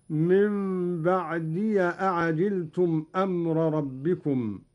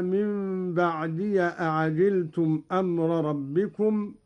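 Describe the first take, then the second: First: "بعدي" said baʕdiya, with a short a on the ya; open ya. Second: Said in the usual way. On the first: Shown as a demonstration. Teacher demonstrating Qalun's reading, "بعدي" ending in an open ya. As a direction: link "بعدي" to "أعجلتم" through "ya". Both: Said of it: "قرأ قالون بفتح الياء".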